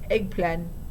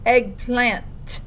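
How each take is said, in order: First: The final T sound is left off. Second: The final T sound is strongly stressed. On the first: The speaker calls it wrong. "except she pronounced it eggplan" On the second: The speaker calls it right. "emphasizing the T so vigorously"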